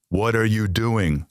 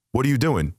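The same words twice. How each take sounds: First: Spelled out slowly, each word separate; slow deliberate repeat. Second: Pitched higher, pressing for an answer; repeated question, raised. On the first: Son asks father a third time, slowly and deliberately. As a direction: drag it out as if to the hard of hearing. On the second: Son presses ignoring father with a raised repeat. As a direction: ask it again up high, getting impatient. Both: Retold or imitated.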